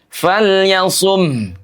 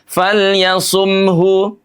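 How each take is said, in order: First: The final vowel is dropped, leaving silence. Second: The final vowel is fully voiced. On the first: The speaker calls it right. "Sukunkan falyasum" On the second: The speaker calls it wrong. "Tidak falyasumhu"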